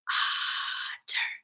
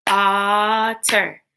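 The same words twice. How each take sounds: First: Very soft, voiceless otter, first syllable held; whispered otter. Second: Voiced otter in two beats; otter split into syllables. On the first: Teacher asking pupils to whisper with her, whispered otter. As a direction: whisper otter in two separate beats. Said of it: "Whisper with me". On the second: Teacher stomping along with pupils, otter split in two. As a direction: lengthen the first syllable of otter. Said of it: "Break words into parts". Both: Shown as a demonstration.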